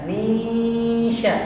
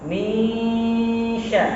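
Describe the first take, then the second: Both takes have the same delivery.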